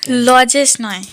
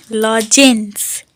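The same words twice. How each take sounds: First: Said in the usual way. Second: লজেন্স said slowly and clearly, lo-jens; correct pronunciation. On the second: Shown as a demonstration. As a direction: spell out লজেন্স slowly with each sound.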